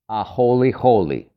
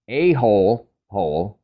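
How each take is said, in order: First: Each part ends in an 'ee' sound, like 'holy'. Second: Each part sounds like 'hole', with no final vowel. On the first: The speaker calls it right. "it's actually pronounced a-holy holy" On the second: The speaker calls it wrong. "if you read it as a-hole hole"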